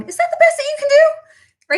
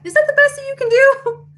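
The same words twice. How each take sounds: First: Much higher, cartoonish mock voice; doctor mimicked. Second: Much higher, cartoonish haggling customer voice; mocking haggler. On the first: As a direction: play the doctor as a squeaky haggler. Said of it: "My doctor going". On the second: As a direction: squeak it like a cheeky bargain hunter. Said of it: "Tell me yes if you heard that".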